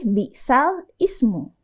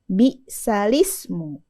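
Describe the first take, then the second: First: A glottal stop separates the l from ismu. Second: The l links straight into ismu without a break. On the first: The speaker calls it wrong. "Bukan lagi bi'sal ismu" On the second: The speaker calls it right. "Jadi bacaannya bi'salismu. ... Yang dikasrohkan huruf lamnya ya"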